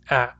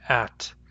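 First: The word ends with a glottal stop, no t. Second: The word ends with a clearly released t sound. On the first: "I pronounce them with a glottal stop instead of a T" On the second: "When I pronounce them carefully, they have a real T"

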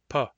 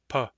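First: The p is released gently. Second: The p is released gently.

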